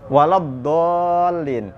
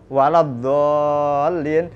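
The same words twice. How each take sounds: First: The middle consonant is pronounced as dad. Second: The middle consonant is pronounced as dha.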